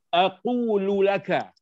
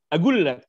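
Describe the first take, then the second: First: Every syllable is said in full, ending in -laka. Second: It is shortened to two syllables with a g sound.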